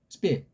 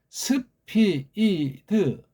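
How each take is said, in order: First: The S and P blend together into one syllable. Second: Each sound is broken into separate vowel-ended syllables. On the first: This is how native speakers say it. "S랑 P를 한 번에 읽어요" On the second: This is how Koreans have learned to say it. "스피 이드 그렇게 우리는 들어와 있어"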